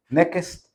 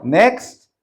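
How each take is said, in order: First: "next" said as nekest with an extra e between k and s; hometown pronunciation. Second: Said in the usual way. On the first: Shown as a demonstration. Joking how they say it back home, "next" as nekest. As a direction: stretch "next" into ne-kest, village style. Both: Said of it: "O como dicen en, en mi pueblo".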